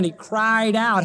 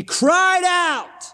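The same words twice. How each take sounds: First: Said in the usual way. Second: Crying out. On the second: Shown as a demonstration. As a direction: let it ring out like Christ crying aloud. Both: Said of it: "How many times you read that Greek verb ekratsen?".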